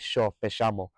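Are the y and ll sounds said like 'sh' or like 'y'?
sh. The y and ll sound like English sh. "it's more of a sh"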